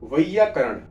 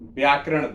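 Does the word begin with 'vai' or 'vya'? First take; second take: vai; vya. First: The word begins with the syllable 'vai'. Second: The word begins with the cluster 'vya'. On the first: The speaker calls it right. "अभी मैंने एक शब्द बोला वैयाकरण" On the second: The speaker calls it wrong. "नाइंटी nine लोग percent लोग क्या बोलते हैं? व्याकरण बोलते हैं।"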